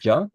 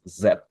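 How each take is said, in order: First: The consonant is a j sound. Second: The consonant is a z sound. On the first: The speaker calls it wrong. "you pronounced it as uh, ja" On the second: The speaker calls it right. "it is correctly uh, pronounced as Z"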